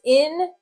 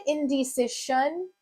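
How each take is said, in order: First: Indecision in separate syllables, in-di-si-zhun; sounded out. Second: Indecision ending in "shun" instead of "zhun"; wrong ending tried. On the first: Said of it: "So this word is". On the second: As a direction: test indecision with a hissed sh ending. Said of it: "doesn't quite sound right". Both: Shown as a demonstration.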